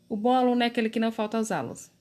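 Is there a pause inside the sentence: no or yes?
no. The sentence runs on without any pause. The speaker calls it wrong. "Ficaria uma frase comprida e assim, corrida"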